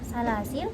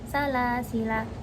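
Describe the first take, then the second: First: The word ends on the consonant l. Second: The word ends on a final a vowel. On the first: The reciter stops on this word. "wakaf pada lam yang mati bukan pada alif setelahnya" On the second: The reciter continues without stopping. "Pada keadaan tidak wakaf harus dibaca salasila"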